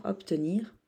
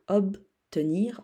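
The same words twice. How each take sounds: First: Said in the usual way. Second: Obtenir slowly split as ob-tenir; slow teacher's breakdown of Obtenir; sounded out slowly. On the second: Shown as a demonstration. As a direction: break Obtenir after a firm ob. Teacher repeats word split, then whole.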